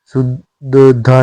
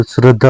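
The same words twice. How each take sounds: First: शुद्धता opening su with no r; wrong su-dda form. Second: श्रद्धा with r in the first cluster; correct shr- opening. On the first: Teacher showing learners the mistake, शुद्धता as su-da-dhaa. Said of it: "श्रद्धा होती है". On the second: Teacher giving learners the correction, श्रद्धा as srad-dhaa. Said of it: "शुद्धता नहीं होता". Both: Shown as a demonstration.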